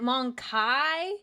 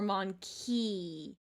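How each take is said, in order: First: The second syllable ends in an 'eye' sound. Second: The second syllable ends in an 'ee' sound.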